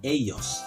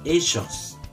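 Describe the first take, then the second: First: The double L sounds like a y. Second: The double L sounds like a zh. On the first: This is how it is said in the speaker's home province. "Kami ellos" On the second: This is how it is said in the capital of Argentina. "Kalau orang yang berada di ibu kota negara Argentina, mereka menyebutnya ellos"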